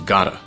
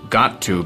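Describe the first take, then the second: First: The words are shortened and joined into one. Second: Both words are said fully and separately.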